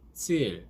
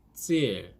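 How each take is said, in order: No difference in how they are said.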